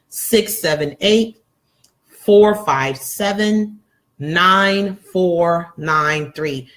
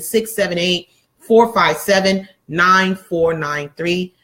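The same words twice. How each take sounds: First: The digits are read at a slow pace. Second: The digits are read at a fast pace. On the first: "so I will slow it down" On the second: "I'm told I speak very fast"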